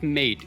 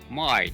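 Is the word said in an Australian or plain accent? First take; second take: plain; Australian. First: The vowel is a single plain vowel sound. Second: The vowel glides through several blended vowel sounds. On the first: The speaker calls it wrong. "it's not mate" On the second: The speaker calls it right. "the trick to pronouncing Australian words is to add extra vowels"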